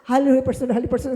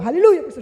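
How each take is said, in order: First: Said in the usual way. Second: Loud shout of "Hallelujah, person". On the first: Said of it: "ang sagot ko lang". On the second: Retold or imitated. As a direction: yell "Hallelujah" out high and loud. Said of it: "sigaw ko". (isinisigaw nang malakas)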